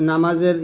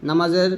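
Both takes have the same delivery.

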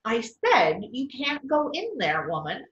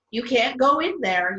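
First: Insist, hitting "said"; mild repeated yell. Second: Peter calling out, a bit louder; a light storybook yell to stop her; read-aloud mock yell at the door; mild yell. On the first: Acted. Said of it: "Peter yelled again". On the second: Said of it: "yelled Peter".

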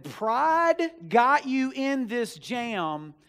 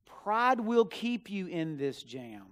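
First: Much higher and louder, dragged out very slowly; stern rebuke. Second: Slow, with "will" leaned on and falling; firm warning. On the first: Friend Matt tells the pastor to stop his pride, slow, loud rebuke. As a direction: lean hard on every word of "Pride got you in this jam". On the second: Friend Matt warns the pastor about his pride, slow and firm. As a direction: press "will" in "Pride will keep you in this jam" firmly, slowly. Friend's blunt rebuke retold. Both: Retold or imitated.

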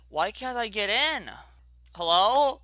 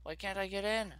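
First: Louder, higher puzzled demand; exasperated question louder than the mutter; frustrated. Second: Said in the usual way. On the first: Real, not acted. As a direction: ask it again, more exasperated. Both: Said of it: "repeated louder".

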